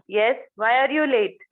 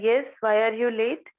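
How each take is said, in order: First: The tone sounds very angry. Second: The tone is calm, with no anger. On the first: The late person will stay silent. "Third toning मध्ये she will feel की I am very angry" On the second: The speaker is ready to listen to the reason. "पहिल्या toning मध्ये the person thinks की I am not angry"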